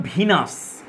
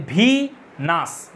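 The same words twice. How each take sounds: First: Said in the usual way. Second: ভিনাস broken in two, long ভি, then নাস; split into syllables. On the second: Shown as a demonstration. Teacher showing students two syllables, ভিনাস split syllable by syllable. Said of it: "দুটো syllable আছে".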